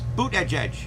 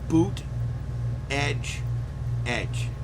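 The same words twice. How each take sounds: First: The three words are run together quickly. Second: The three words are said slowly and separately. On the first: "if you say it fast" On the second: "They would spell out"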